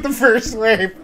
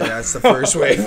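First: Higher-pitched, incredulous echo; raised-pitch echo of disbelief, retold; retold startled echo. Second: Low, matter-of-fact report; housemate's low-voiced announcement, retold. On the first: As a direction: repeat it back higher, as if startled. Teller's own startled echo of him. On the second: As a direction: imitate him announcing it in a low voice. Retold housemate announcing the hurricane's first wave.

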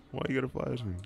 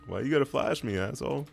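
First: Said in the usual way. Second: Indignant yell. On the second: Real, not acted. Blinded by enemy flash.

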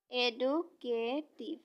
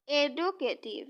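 First: এডুকেটিভ said very slowly, syllable by syllable; slow syllable split. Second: Said in the usual way. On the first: Shown as a demonstration. Teacher showing students the syllables of এডুকেটিভ, slowly. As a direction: draw out এডুকেটিভ as এডু-কেটিভ. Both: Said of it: "এডুকেটিভ অর্থাৎ এডু".

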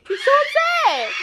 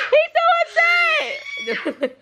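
First: High, laughing shout. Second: "He's so upset" çok yüksek perdeden, yavaşça uzatarak; slow, high drawn-out. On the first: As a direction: laugh it out at the upset dog. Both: Real, not acted. Laughing at upset dog.

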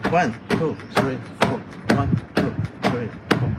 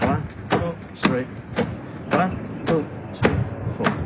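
The two takes are said the same way.

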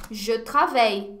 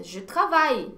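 First: "travaille" mispronounced with an 'ay' ending; students' mispronunciation. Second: "travaille" with an open 'ai' ending, like 'tie'; correct French pronunciation. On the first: Retold or imitated. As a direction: say "travaille" wrongly as 'tra-vei'. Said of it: "eu já vi alunos pronunciando". ("travaille" errado, com som de 'travei') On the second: Shown as a demonstration. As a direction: say "travaille" as 'tra-vai'. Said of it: "Mas, nossa". ("travaille" correto, com 'ai' bem aberto)

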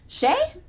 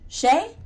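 First: Second call, higher and more urgent; calling louder. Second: First call into the dark, raised. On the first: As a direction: call again, now alarmed. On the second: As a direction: call his name, worried. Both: Acted. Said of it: "I called".

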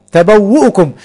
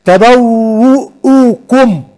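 First: Said in the usual way. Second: تبوؤكم drawn out very slowly, syllable by syllable; teacher sounds out تبوؤكم slowly; very slow demo word. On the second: Shown as a demonstration. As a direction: stretch تبوؤكم to show the hamza after the doubled waw.

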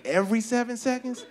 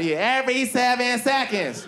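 First: Puzzled thinking. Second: High, insistent echo of a stage cry; high-pitched mimicked proclamation; mock yelled stats. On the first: Acted. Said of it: "but I'm thinking". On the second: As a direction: throw it out like a rallying chant. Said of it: "And she yells out stats".

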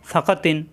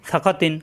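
Both takes have the same delivery.

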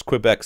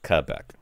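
First: Quebec said as "kwi-BEK"; mispronounced Quebec. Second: Quebec said as "kuh-BECK"; corrected pronunciation. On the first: Real, not acted. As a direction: put a w after the K in Quebec. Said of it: "'cause I'm saying Qua". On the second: Shown as a demonstration. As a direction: drop the w sound from Quebec. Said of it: "that was right".

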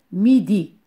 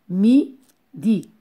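First: Said in the usual way. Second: Mi-di in two separated beats; syllable by syllable. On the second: Shown as a demonstration. Teacher shows two syllables to pupils, Mi-di split apart. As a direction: break Mi-di with a clear gap. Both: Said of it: "Deux syllabes".

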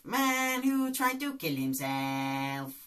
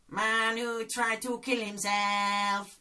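First: Doctor Bob impression. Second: Slow, high put-on doctor voice; Doctor Bob impression. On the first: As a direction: repeat it slowly in character. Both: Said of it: "Lee Nelson's character, Doctor Bob".

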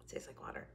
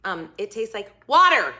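First: Whispered deadpan repeat. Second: Said in the usual way. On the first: Real, not acted. Repeating her verdict to viewers, whispered. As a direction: breathe "It tastes like water." as a hushed joke.

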